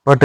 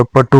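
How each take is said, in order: First: पट said as "pat", with no final vowel; the incorrect form पट, "pat"; wrong pronunciation. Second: पटु said as "patu", ending in a short u; the correct form पटु, "patu"; correct pronunciation. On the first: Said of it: "पट नहीं होता". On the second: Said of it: "पटु होता है". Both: Shown as a demonstration.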